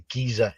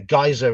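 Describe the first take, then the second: First: It is said in a British accent. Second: It is said in an American accent. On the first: "it's a Giza in English" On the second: "geyser in American"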